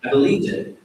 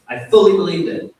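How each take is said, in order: First: Said in the usual way. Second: Fully pushed up high and loud; stress on fully. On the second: Real, not acted. To the temple, insisting he fully believed, stress on fully. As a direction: lean hard on the word fully, louder and higher.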